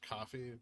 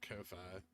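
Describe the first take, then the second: First: The name sounds like the word coffee. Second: The name is said as two parts, koh-fye. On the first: The speaker calls it right. "is pronounced coffee" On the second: The speaker calls it wrong. "not Ko-Fi"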